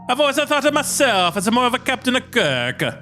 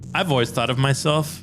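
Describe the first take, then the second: First: It is said in Santarelli's put-on voice. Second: It is said in the reader's own voice.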